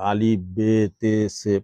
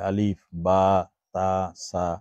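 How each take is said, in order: First: The letter names end in an 'e' vowel. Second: The letter names end in an 'a' vowel. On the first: This is the old Urdu-style reading. The speaker calls it wrong. "এভাবে পড়াইতো" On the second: This is the Arabic reading. The speaker calls it right. "আমরা পড়ি কি আরবিতে"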